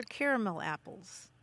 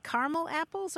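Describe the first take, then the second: First: "caramel apples" as CARE-uh-mul apples; three-syllable pronunciation. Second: "caramel apples" as CAR-mul apples; two-syllable pronunciation. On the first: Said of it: "or caramel apples". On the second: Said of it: "Do you eat caramel apples or". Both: Shown as a demonstration.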